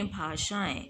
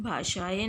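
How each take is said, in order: First: भाषाएं softer, as "bhaashaa-en"; correct pronunciation. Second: भाषाएं as "bhaasha-e", without nasal ending; wrong pronunciation. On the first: Teacher correcting for pupils, भाषाएं said softer. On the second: Teacher showing pupils the mistake, भाषाएं with plain final "e". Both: Shown as a demonstration. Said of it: "भाषाएं नहीं".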